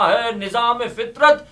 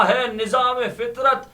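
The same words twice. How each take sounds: The two takes are said the same way.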